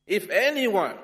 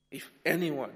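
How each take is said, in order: First: Loud, higher call to the crowd; Jesus calls out. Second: Said in the usual way. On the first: Acted. Jesus calling out loudly to the big crowd. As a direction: announce it to the whole crowd.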